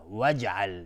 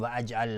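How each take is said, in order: First: وجعل with the alef dropped, slow; proper وجعل; correct reading. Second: و اجعل with the alef sounded; wrong reading. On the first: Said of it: "لا، وجعل". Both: Shown as a demonstration.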